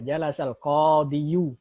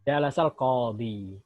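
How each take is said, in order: First: The last word ends in an added -yu. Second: The last word ends in a long -i. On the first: The speaker calls it wrong. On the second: The speaker calls it right.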